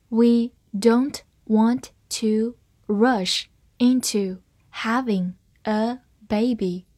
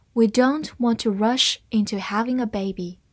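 First: Slow, each word firmly set apart; slow reading. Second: Said in the usual way. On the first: Shown as a demonstration. Teacher models the sentence for learners, slow reading. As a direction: read it word by word, unhurried. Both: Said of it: "我们慢读一遍".

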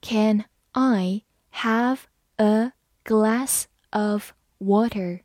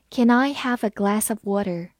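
First: Very slow, word by word; slow reading. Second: Said in the usual way. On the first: Shown as a demonstration. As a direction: read it slowly, separating each word. (慢读，逐词分开) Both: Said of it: "好，慢读一遍".

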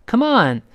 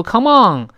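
First: "Come on" with "on" ending in a clean n; front n ending. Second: "come on" wrongly ending in an ng sound; back nasal ending. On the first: Teacher models for learners, "on" ending in n, not ng. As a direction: keep the tongue root down on "on". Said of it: "舌根不要拱上去啊". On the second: Teacher shows learners what to avoid, "on" ending in ng. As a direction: raise the tongue root at the end of "on". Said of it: "不要读". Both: Shown as a demonstration.

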